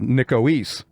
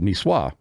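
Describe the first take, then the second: First: The word is said in a folksy anglicized form. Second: The word is said in its usual French form.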